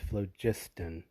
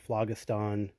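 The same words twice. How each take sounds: First: The G is said as a soft sound. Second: The G is said as a hard sound. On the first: The speaker calls it right. "the Greek pronunciation with the soft G" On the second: The speaker calls it wrong. "I don't know what B J was thinking of"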